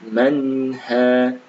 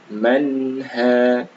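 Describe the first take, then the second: Both takes have the same delivery.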